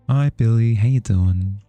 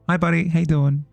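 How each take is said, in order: First: It is said in a lazy, low-energy way. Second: It is said in a livelier, more energetic way.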